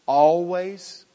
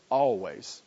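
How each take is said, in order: First: Always said higher and louder, hit hard; emphatic always. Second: Always repeated lower and quieter, set back; soft repeat. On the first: Preacher stresses that the verb always means sin, emphatic. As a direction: punch the word always. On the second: Preacher repeats always softly after the emphatic take. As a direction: echo always lower, almost to yourself. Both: Real, not acted. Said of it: "this verb laid aside always".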